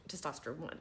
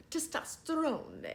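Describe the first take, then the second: First: "testosterone" offered softly, as if unsure this is right; corrected pronunciation. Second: "Testosterone" drawn out slowly and pitched high, falling at the end; playful pronunciation. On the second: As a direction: stretch "Testosterone" slowly, high, like a grand announcement. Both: Shown as a demonstration. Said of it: "I think it might be pronounced t".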